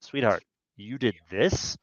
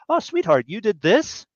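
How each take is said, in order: First: Quiet reproach; accusing tone. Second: Higher, sweet and pleased; sweet affectionate tone. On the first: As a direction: lower and softer, pointed. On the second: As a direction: say it like a delighted wife. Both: Shown as a demonstration. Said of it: "Those are the same words, but they mean very different things".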